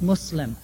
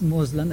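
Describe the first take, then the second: First: The middle consonant is an S sound. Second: The middle consonant is a Z sound. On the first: The speaker calls it right. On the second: The speaker calls it wrong.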